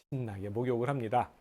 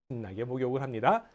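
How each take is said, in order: No difference in how they are said.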